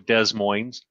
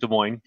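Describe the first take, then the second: First: The S sounds are pronounced in the name. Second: The S sounds are silent in the name. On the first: The speaker calls it wrong. "They try to go Des Moines" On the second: The speaker calls it right. "the S is silent. So it's just Des Moines"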